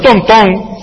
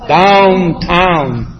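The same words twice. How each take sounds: First: Downtown said as "don-ton"; Nuyorican pronunciation. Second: Downtown drawn out as "down-town", diphthongs full; careful standard pronunciation. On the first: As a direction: flatten both vowels of downtown to "donton". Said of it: "¿Qué es un downtown?". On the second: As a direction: stretch both syllables of downtown clearly. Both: Shown as a demonstration.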